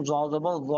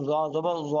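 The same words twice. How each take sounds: First: "জ" a little spread and flattened; slightly flattened consonant. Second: Soft "জ" with a rounded vowel; soft consonant. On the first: Teacher refining the letter, "জ" said slightly flattened. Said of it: "একটু চ্যাপ্টা হবে". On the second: Teacher drilling Arabic letters, "জ" said soft. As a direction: say "জ জবর জ" with a gentle, soft জ. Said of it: "নরম হবে". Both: Shown as a demonstration.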